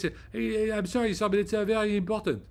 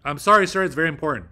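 First: High-pitched imitation of a French accent; put-on French accent, high and polite; mock French accent. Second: Loud, forceful American accent; commanding American delivery, raised and firm; serious American voice. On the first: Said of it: "they speak like this". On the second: Shown as a demonstration. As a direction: hit it hard in a stern American voice. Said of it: "serious American voice".

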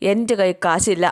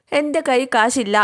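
First: Said in the usual way. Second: എൻ്റെ കൈ കാശില്ല higher and slow, mock angry; imitating angry refusal. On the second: Recapping Meenakshi snapping at Mitra, mock angry and slow. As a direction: act out the sister-in-law's irritated refusal. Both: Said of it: "എന്നും പറഞ്ഞ് മീനാക്ഷി ദേഷ്യപ്പെടുകയാണ്".

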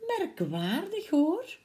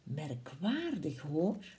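First: Higher, wondering Gruffalo with a rising tune; puzzled Gruffalo, higher. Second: Lower, much softer, slow musing Gruffalo; puzzled Gruffalo. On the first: Gruffalo puzzled again as Owl flees, higher and rising. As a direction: ask it half aloud, baffled. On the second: Gruffalo wonders why the animals flee, low and soft. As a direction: mull it over quietly like a big slow beast. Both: Acted. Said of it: "De Gruffalo zei".

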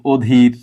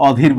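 First: "অধীর" drawn out as "odhir"; first vowel as o. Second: "অধীর" with an open aw at the start; open first vowel. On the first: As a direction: start "অধীর" on a closed, rounded o. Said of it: "ও এর মতো উচ্চারণ করছি". ("অধীর"-এর অ ও-এর মতো) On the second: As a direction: show the wrong "অধীর", first vowel as in "law". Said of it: "কিন্তু অধীর বলি না". ("অধীর"-এর অ বিবৃত উচ্চারণে) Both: Shown as a demonstration.

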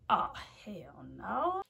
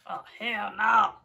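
First: Whispered dread. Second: Louder, full-voiced hell no; loud refusal. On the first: Vlogger reading the scary warning, whispered dread. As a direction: breathe it out in disbelief. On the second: Vlogger reacting to the warning, loud refusal. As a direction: say it out loud this time. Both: Real, not acted.

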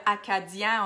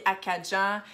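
First: "acadien" with a clear "di", as "a-ca-dyin"; careful "acadien", no "dj" sound; standard pronunciation. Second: "acadien" said as "acadjin"; Acadian dialect pronunciation. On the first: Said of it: "au lieu de dire". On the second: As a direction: turn the "di" of "acadien" into "dj". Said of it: "on dit acadien". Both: Shown as a demonstration.

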